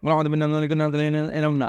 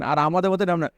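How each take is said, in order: First: এরম stretched slowly with a falling tune; slow, drawn-out repeat. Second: Said in the usual way. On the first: Shown as a demonstration. Teacher repeating the point slowly to students. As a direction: drag out আমাদের এরম না word by word.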